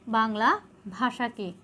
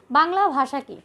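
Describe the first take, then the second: First: Slow, soft dictation for students to write down; slow, quieter classroom dictation; dictation pace. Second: Said in the usual way. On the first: Shown as a demonstration. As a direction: say it slowly so they can copy it. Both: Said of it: "তোমরা তুলে নাও".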